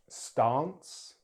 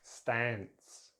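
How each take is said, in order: First: It is said with a British accent. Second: It is said with an American accent. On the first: "in British English" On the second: "then American English"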